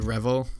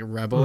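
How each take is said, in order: First: The middle consonant is a v sound. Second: The middle consonant is a b sound. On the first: "one suggestion I saw for Red Velvet's name would be Revel" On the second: "in Korean it would be pronounced like Rebel"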